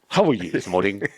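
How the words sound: It is said imitating the man's voice and teeth.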